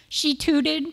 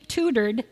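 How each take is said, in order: First: "tutored" as "tud", Boston accent. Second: Said in the usual way. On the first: Shown as a demonstration. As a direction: drop the r in "tutored", Boston style. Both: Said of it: "that's my Boston accent".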